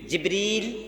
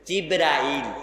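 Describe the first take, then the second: First: The name has two syllables, ending in -ril. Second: The name has three syllables, ending in -rail. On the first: This is the form used in the Quran and hadith. "আমি বারবার কি বলতেছি?" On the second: This is the form commonly used in Bangladesh. "আমাদের বাংলাদেশে কি বলা হয়?"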